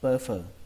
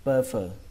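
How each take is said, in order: Both takes have the same delivery.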